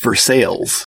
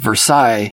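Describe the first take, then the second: First: It is said the local town way. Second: It is said like the palace name. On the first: "locally it's pronounced Versailles" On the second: "named after the Royal Palace of Versailles"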